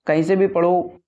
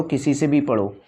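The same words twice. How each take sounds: First: Said in the usual way. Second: Whispered aside. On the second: Shown as a demonstration. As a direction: drop to a whisper, as if sharing a secret. Advice repeated, second take whispered. (फुसफुसाकर)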